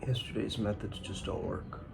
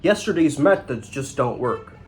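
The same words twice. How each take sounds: First: The line is said in a sad tone. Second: The line is said in a plain, neutral tone.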